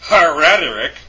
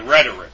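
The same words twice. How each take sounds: First: The word starts with an audible h sound. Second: The word starts directly with the r sound. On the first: The speaker calls it wrong. "instead of saying rhetoric" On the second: The speaker calls it right. "you say rhetoric"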